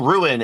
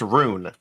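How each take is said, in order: First: It sounds like the two-syllable word ruin. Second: It sounds like the one-syllable word rune. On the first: The speaker calls it wrong. "He's saying he's saying ruin" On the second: The speaker calls it right. "and it's rune"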